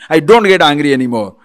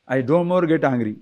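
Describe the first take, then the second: First: Loud, heated insistence; hammed-up shout that denies any anger; angry denial. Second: Said in the usual way. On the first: Person denying anger to a doubter, loudly angry. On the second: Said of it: "Like a person says".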